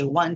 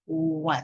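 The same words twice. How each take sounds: First: The word is said quickly without emphasis. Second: The word is said slowly with clear emphasis. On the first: The speaker calls it wrong. "rather than just saying" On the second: The speaker calls it right. "to really slow down, emphasize"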